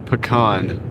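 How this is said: It is said the non-Southern way. The speaker calls it wrong. "We don't say pecan"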